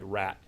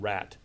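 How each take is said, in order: First: The final t is a glottal stop. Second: The final t is a clear released t. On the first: "produce a T as glottal stop in final position" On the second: "rather than"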